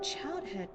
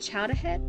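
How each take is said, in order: First: No vowel between chowd and head. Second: An ah vowel sits between chowd and head. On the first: The speaker calls it wrong. "That's not the Boston accent" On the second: The speaker calls it right. "If you want the Boston accent"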